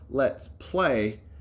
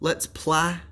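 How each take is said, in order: First: The vowel in 'play' is a long 'ay'. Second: The vowel in 'play' is a short 'ah'. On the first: The speaker calls it right. "try the long vowel sound of A" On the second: The speaker calls it wrong. "If I use that short sound, ah, does that sound right?"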